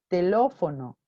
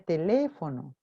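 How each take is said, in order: First: The second vowel is an O sound. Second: The second vowel is an E sound. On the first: This is how a child with the disorder says it. The speaker calls it wrong. "pronunciar tel telófono" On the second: This is the intended adult form. The speaker calls it right. "en lugar de teléfono"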